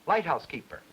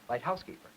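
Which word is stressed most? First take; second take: light; house. First: The strongest stress is on light. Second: The strongest stress is on house.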